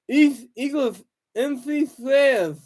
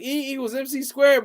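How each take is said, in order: First: It is slurred, like a mouth missing teeth. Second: It is spoken clearly, with normal articulation. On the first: The speaker seems unable to talk. "If if if Albert Einstein sounded like this" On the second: The intended words are understood. "He's saying E equals mc squared"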